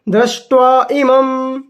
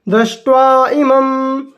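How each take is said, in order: The two takes are said the same way.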